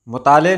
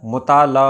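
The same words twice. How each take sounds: First: मुताले ending in "e"; wrong pronunciation. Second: मुताला ending in open "aa"; correct pronunciation. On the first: Teacher showing viewers the common error, mispronounced. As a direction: say "mu-taa-le" for मुताले. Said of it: "मुताले नहीं होता है". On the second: Teacher correcting the error for viewers, correctly pronounced. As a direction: say "mu-taa-la" for मुताला. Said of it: "मुताला होता है". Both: Shown as a demonstration.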